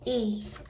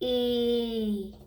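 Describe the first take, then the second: First: The sound is said quickly and briefly. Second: The sound is stretched out slowly. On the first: "and then say it fast" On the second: "I'm going to say the sound slowly"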